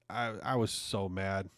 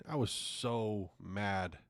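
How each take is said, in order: First: Said in the usual way. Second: Drawn out slowly and softer, trailing off; slow deflated mutter. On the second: Real, not acted. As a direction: let the anger drain out, slowly.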